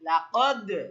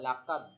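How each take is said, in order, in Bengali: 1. শেষের d প্রতিধ্বনিসহ ঝাঁকুনি দিয়ে ছাড়া হয়। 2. শেষের d সমতল ভাবে থেমে যায়, কোনো ঝাঁকুনি ছাড়া। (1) "কলকলা করতে হলে আমাদেরকে বলতে হবে লাকদ" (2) "ধাক্কা না দেওয়া, লাকদ, এটা কলকলা হলো না"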